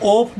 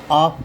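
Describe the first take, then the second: First: ऑफ with a round O, "ohf"; rejected O reading. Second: आप as "aaf", open aa; open AA reading. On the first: Teacher shows what not to read, ऑफ with an O. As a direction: round the vowel of ऑफ to O. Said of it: "ऑफ नहीं पढ़ेंगे". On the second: Teacher shows students the taught reading, आप as open aaf. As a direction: open आप wide to aa, ending in f. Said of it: "इसको आप पढ़ेंगे". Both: Shown as a demonstration.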